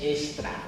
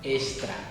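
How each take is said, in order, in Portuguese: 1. Ela é pronunciada com sons portugueses. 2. Ela é pronunciada com sons portugueses.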